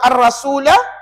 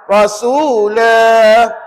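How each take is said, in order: First: The final vowel is short. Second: The final vowel is held for two counts. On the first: The reading continues without stopping. "Kalau wasal baca pendek" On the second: The reader stops at the end of the verse. "kalau wakaf baca panjang. Dua harakat"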